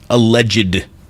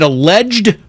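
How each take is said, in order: First: The word ends in an extra id syllable. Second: The word ends in a plain d sound. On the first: "or do you like pronouncing the id?" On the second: "Is it alleged"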